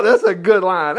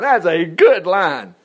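First: Said in the usual way. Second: "good" drawn out and punched, whole line slow; stress on GOOD. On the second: Real, not acted. Preacher relishing a verse to the congregation, slow stress on "good". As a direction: savor the line, leaning hard on "good". Repeats the praise with emphasis.

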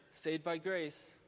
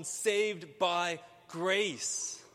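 First: Said in the usual way. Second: "saved by grace" slow and emphatic; stress on SAVED BY GRACE. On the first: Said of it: "emphasis on sinner". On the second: Shown as a demonstration. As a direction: give "saved", "by" and "grace" each their own weight. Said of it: "put the emphasis on".

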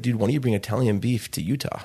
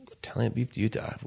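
First: Said in the usual way. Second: Disbelieving whisper of the idea. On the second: Retold or imitated. Repeating the brother's pitch back in a stunned whisper. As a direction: breathe it out, hardly believing it.

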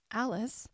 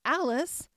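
First: Said in the usual way. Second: The name Alice said louder and higher, triumphant; joyful recall. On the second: A narrator's reading. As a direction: call out Alice like a found treasure. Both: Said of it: "I won't forget it again".

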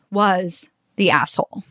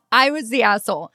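First: Said in the usual way. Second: Laughing through "I was the asshole"; real laugh on "I was the asshole". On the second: Real, not acted. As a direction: say "I was the asshole" while really laughing at yourself. Laughs at her own realization.

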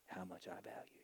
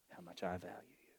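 First: Soft whisper. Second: Said in the usual way. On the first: Acted. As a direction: whisper it tenderly, almost no voice. Tender whisper to listeners.

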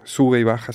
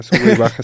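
First: Said in the usual way. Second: "sube y baja" said with the pitch going up then down; louder, swooping "sube y baja" to show the melody; singsong melody demo; sing-song rise and fall. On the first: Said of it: "con tonos muy". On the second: Shown as a demonstration. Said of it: "con tonos muy, sube y baja".

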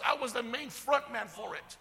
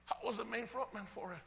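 First: Said in the usual way. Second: Softer, sobered confession; hushed repeat. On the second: Acted. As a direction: drop the volume and let it sink in. Same confession repeated softly afterwards.

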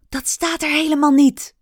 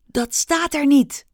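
First: Higher and louder, stressing "niet"; desperate cry. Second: High, desperate protest; desperate cry. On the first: Rikki pleads desperately, stressing "niet" loud. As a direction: push "niet" out in despair. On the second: Rikki cries out desperately to the stage. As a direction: cry it out in despair. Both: Acted. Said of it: "riep Rikki wanhopig".

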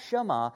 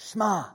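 First: Shema with a full middle vowel, "shuh-MAH"; long Shema. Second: Shema with the middle vowel clipped, "SHMAH"; short Shema. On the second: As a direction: squeeze "Shema" into one quick syllable. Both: Shown as a demonstration. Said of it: "The middle vowel shortens".

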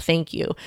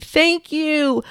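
First: Said in the usual way. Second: High, called-out thank you across a street; mock shout of gratitude to a crying mom; imagined yell. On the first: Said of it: "regret that I didn't yell out". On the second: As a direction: call the thanks out to a stranger far away. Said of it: "I really wanted to yell out to her across the street".

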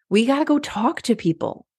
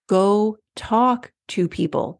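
First: Said in the usual way. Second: Each word of Go talk to people spelled out slowly and firmly; slow emphatic repeat. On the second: Shown as a demonstration. Coach to listeners, hammering home the point, slow and firm. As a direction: lean on "talk" and drag "Go talk to people".

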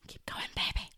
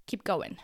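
First: Whispering. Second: Said in the usual way. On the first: Acted. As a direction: whisper it to yourself. Whispered encouragement to herself.

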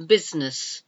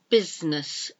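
Both takes have the same delivery.

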